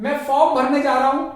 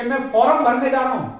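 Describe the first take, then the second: First: फॉर्म as "fawm" in a quick sentence; correct pronunciation. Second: फॉर्म as "foram" in a quick sentence; wrong pronunciation. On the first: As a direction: drop the r in फॉर्म, brisk. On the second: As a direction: sound the r in फॉर्म, brisk. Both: Shown as a demonstration. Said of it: "फॉर्म गलत है".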